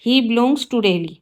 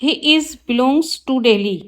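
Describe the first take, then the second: First: Slow, careful read of the corrected sentence; slow teacher dictation. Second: Slow, careful read of the wrong sentence; slow teacher dictation. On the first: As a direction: lay out each word clearly for the class. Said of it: "right sentence होगा". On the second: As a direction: spell it out word by word for the class. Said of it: "wrong है sentence". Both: Shown as a demonstration.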